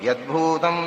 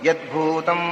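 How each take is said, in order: Both takes have the same delivery.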